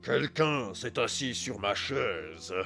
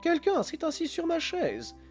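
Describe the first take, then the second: First: It is growled in a big gruff voice. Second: It is said in a medium voice.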